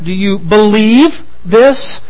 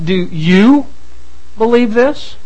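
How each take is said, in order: First: The stress falls on the word believe. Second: The stress falls on the word you. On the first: The question asks pointedly about real belief. "It's certainly a pointed question" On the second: The question is aimed at the listener personally. "it is a personal question"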